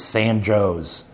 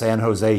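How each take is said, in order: First: The name ends with a 'Joe's' sound. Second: The name is said the usual way, ending 'Jose'. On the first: This is how the town in Illinois is pronounced. "it's San Joe's in Illinois" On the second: This is the local pronunciation of the name here. "San Jose is San Jose here"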